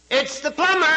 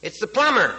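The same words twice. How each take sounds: First: Parrot voice. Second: Lightly acted call through a door, pitched up; plumber calling out. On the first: Acted. Parrot answers the old lady from inside, high squawk. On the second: Plumber answers the parrot through the door, mild call-out. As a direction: raise the voice a little to be heard inside.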